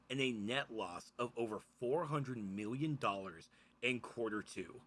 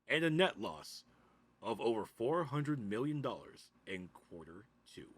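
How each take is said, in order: First: It is said in a normal speaking voice. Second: It is said in an announcer voice.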